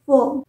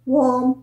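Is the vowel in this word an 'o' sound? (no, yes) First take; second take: no; yes. First: The vowel is not pronounced as an 'o' sound. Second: The vowel is pronounced as an 'o' sound. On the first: The speaker calls it right. "इसे हम प्रनाउंस करते हैं वॉर्म" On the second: The speaker calls it wrong. "ओ है तो ओ होना चाहिए ना वॉर्म, पर ये गलत है"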